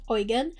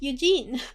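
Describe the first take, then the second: First: The name is said with a German-like pronunciation. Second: The name is said with an English-like pronunciation.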